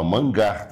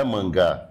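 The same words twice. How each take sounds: First: "mangar" stressed on -gar, final r audible; mangar, not mangá. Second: "mangá" with open stressed final a, no r; the mistaken "mangá"; wrong form mangá. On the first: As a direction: say "mangar" as the verb. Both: Shown as a demonstration. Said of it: "Não é mangá".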